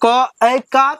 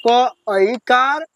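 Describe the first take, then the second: First: क ऐकार said again a bit louder and firmer; teacher stresses the syllable for the class; emphatic repeat. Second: क ऐकार stretched out very slowly; teacher models the syllable slowly; slow drill. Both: Shown as a demonstration. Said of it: "चलिए, मेरे साथ पढ़िए".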